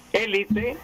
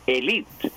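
First: Élite stressed on the first syllable, É-li-te; esdrújula stress. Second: Elite stressed on the second syllable, e-LI-te; grave stress. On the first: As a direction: say élite with the weight on the opening É, pitch jumping up. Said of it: "con pronunciación grave y con pronunciación esdrújula". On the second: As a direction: say elite leaning on the LI, with the final e barely there. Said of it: "con acento grave". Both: Shown as a demonstration.

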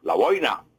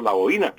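First: "la boina" as BOI-na, two syllables, one glide; Spain's boina. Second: "la boina" as bo-Í-na, three syllables, i stressed; Colombian boína. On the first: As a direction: say "la boina" the Spanish way. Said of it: "Los españoles". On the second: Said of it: "y nosotros". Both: Shown as a demonstration.

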